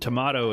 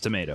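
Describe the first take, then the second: First: It is said in a non-American way. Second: It is said in the American way. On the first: The speaker calls it wrong. "tomato is not how you say it in America" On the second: The speaker calls it right. "It's tomato"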